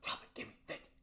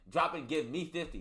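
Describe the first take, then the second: First: The phrase is spoken in a whisper. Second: The phrase is spoken in a normal voice.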